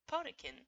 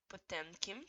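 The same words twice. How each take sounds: First: The M sound in the middle is dropped. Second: The M sound in the middle is pronounced. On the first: This is the easier everyday way. "Just ignore the fact that there is a real random M in the middle" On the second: This is how the show says it. "that's how they say it"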